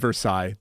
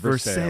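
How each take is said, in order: First: It has the standard pronunciation of the name. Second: It has the local Pittsburgh pronunciation of the name. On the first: This is the proper pronunciation. "that is how it should be pronounced" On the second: It avoids arguing with local people. "when I'm talking to Pittsburghers, I say"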